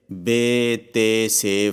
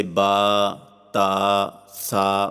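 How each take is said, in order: First: بے، تے، سے with long ay vowels; Urdu pronunciation. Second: با، تا، سا with open long aa vowels; Arabic letter names with open aa; Arabic pronunciation. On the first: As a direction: say بے، تے، سے ending in ay, Urdu style. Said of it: "یعنی اردو تلفظ سے پرہیز کریں". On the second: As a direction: say با، تا، سا ending in aa, Arabic style. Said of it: "یعنی عربی لہجہ میں ادا کریں". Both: Shown as a demonstration.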